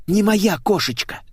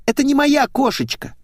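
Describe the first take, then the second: First: High-pitched nervous repeat. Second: Put-on very high girlish squeal. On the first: Blonde insists the car is not hers, nervous. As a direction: repeat it fretfully, high but less piercing. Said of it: "нервно повторила Светик". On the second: Blonde finds her car is wrong, squealing. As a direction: shoot the voice up into a squeal. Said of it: "взвизгнула девица". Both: A narrator's reading.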